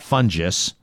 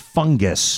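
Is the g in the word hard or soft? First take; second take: soft; hard. First: The g is said soft, as in gem. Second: The g is said hard, as in go. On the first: The speaker calls it wrong. "not fungus" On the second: The speaker calls it right. "It would be a hard, I think"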